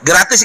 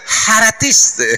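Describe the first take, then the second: First: The word starts with a hard g sound. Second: The word starts with an h sound.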